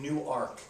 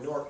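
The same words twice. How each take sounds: First: It is said with the Delaware pronunciation. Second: It is said with the New Jersey pronunciation. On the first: The speaker is from Delaware. The speaker calls it right. "they say, no, sorry, you're in Newark, Delaware" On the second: The speaker is from New Jersey. The speaker calls it wrong. "When you come from New Jersey, you say no, you, you pronounce that Newark"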